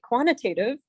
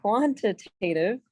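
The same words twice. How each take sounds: First: Said in the usual way. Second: QUANTITATIVE drawn out slowly, part by part; slow, careful. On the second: Real, not acted. Teacher retrying a tricky term for the class, slow and careful. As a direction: say QUANTITATIVE slowly so it comes out right. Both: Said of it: "I have to say this slow".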